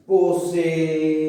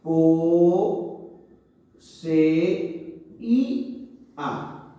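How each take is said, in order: First: "Poseía" stretched slowly in one breath; drawn-out joined syllables. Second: "Po, se, y, a" one syllable at a time, with clear gaps; separated syllables. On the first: Teacher showing students one way to say it, drawn-out joined syllables. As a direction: say "Poseía" with long, connected vowels. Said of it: "Puedo decirlo también así". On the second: Teacher showing students how to separate it, syllable by syllable. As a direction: break "Po, se, y, a" into four isolated beats. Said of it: "podemos separarlo ... Y decir así". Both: Shown as a demonstration.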